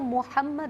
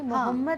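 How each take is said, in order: First: The h is followed by a short 'a' vowel. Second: The h has no clear short 'a' after it. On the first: The speaker calls it right. "मोहम्मद होता है, हे पे ज़बर है" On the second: The speaker calls it wrong. "मोहम्मद नहीं होता"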